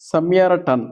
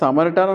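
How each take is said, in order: First: The word is said as sa-mya-ra-tan. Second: The word is said as sa-ma-ri-tan. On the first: The speaker calls it right. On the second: The speaker calls it wrong. "అందరూ దీన్ని సమరిటాన్ అని pronunciation చేస్తారండి. ఇది wrong అండి"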